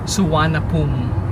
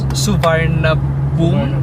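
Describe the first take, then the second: First: It is said differently from how it is spelled. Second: It is read out just as it is spelled. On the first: "pero ang pronunciation is Suvarnabhumi" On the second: "yung spelling is parang Suvarnabhumi"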